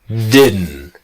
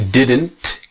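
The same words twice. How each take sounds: First: The final T sound is dropped. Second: The final T sound is pronounced. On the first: "will become didn't" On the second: "the T didn't"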